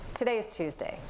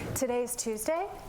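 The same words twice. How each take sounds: First: The voice falls at the end. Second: The voice rises at the end. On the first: It sounds like a confident statement. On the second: It sounds unsure, like a question.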